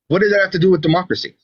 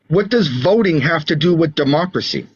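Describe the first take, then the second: First: It is said at normal speed. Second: It is said more slowly.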